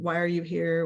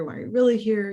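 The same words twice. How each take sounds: First: Said in the usual way. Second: REALLY lifted higher than the rest; probing question, "really" picked out; stress on REALLY. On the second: Retold or imitated. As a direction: press the question by leaning on "really". Same question, pressed with really.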